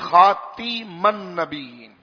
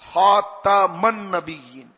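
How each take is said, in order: First: The vowel after the t is not a. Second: The vowel after the t is a. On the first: This is an alternative accepted reading. "ایک طریقے کی قرات اور بھی" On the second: This is the commonly recited reading. "تا کے زبر کے ساتھ ہے"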